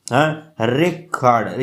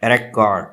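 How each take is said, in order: First: "रिकॉर्ड" said slowly as re-CORD, weight on the second syllable; "रिकॉर्ड" with the verb's second-syllable stress. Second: "रिकॉर्ड" said as RE-cord, first syllable punched; "रिकॉर्ड" with the noun's first-syllable stress. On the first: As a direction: shift the push onto the CORD of "रिकॉर्ड". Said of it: "री और कॉर्ड के दरमियान ज़्यादा जो है यहाँ पे stress". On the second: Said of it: "record as a noun". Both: Shown as a demonstration.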